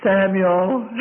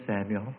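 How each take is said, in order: First: Higher, louder summons; acted insistent call of a name. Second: Low, soft voice calling in the night; hushed, acted summons; quiet call. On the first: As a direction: call out to wake a sleeper. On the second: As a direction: call the name softly and low. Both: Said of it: "a voice that said unto him".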